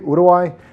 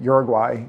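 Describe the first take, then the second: First: It is said with a local Spanish pronunciation. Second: It is said with an American English pronunciation. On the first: "saying it the way they say it in country" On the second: "that's the way we pronounce it here in the United States"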